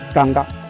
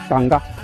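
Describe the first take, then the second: First: The first vowel is an open 'a' sound. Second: The first vowel is an open 'a' sound.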